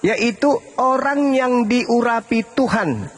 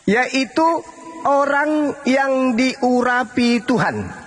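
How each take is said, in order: First: The phrase is spoken at a normal pace. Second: The phrase is spoken slowly and deliberately.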